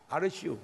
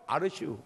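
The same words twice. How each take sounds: First: Lazy ghost drawl. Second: Lazy ghost reply, laughing. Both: Retold or imitated. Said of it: "충청도 귀신들은요".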